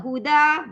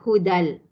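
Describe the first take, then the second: First: The ending is a long open vowel. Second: The ending runs into an l sound. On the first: The reading stops on this word. "kalau berhenti pada hudan" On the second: The reading continues into the next word. "Idgham bila gunah"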